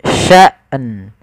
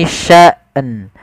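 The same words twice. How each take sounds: No difference in how they are said.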